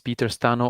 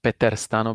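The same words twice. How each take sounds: First: The name is pronounced with English sounds. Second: The name is pronounced with Slovak sounds. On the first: "the English version of the of the pronunciation of my name" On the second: "because I'm originally Slovak"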